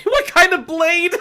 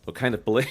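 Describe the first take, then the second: First: High, loud, drawn-out disbelief; incredulous laughing repeat. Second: Said in the usual way. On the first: Real, not acted. Reader baffled by Gaia's odd question, shrieking incredulously. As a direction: squawk the question slowly through laughter.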